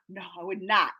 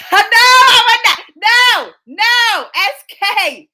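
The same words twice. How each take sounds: First: Quietly backing off the mock protest; low, soft, falling refusal; subdued denial. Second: High, drawn-out shout of refusal; hammed-up shouted denial; loud mock protest. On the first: Calms down after the shouted denial. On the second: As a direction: protest far too much, loud and high. Mock-outraged denial of marrying crush.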